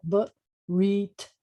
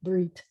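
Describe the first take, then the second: First: Barit drawn out in two separate syllables; sounded out. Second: Said in the usual way. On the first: Shown as a demonstration. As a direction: sound out Barit slowly, bit by bit. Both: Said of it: "can you sound it out?".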